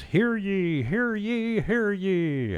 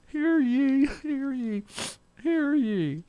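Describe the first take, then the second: First: High, loud proclaiming cry; town crier. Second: Very high, loud ringing proclamation; town crier. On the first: Radio host reading a notice aloud, high town crier call. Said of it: "I feel like the town crier". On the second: Host correcting himself on air, even higher town crier cry. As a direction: belt it out like a village crier. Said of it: "That's the town crier". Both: Pretend.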